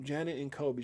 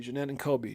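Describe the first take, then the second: First: "Janet" stressed on a first syllable JAN; misreading the name as "Janet", JAN-ut. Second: "Jeanette" stressed on the second syllable, juh-NET; self-correcting to "Jeanette", with a stressed NET; corrected name. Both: Real, not acted. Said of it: "I'm sorry".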